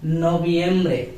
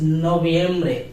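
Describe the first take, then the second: First: The v is said as a b sound. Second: The same.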